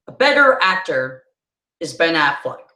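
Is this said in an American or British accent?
American. It is said in an American accent. "That's how an American says it"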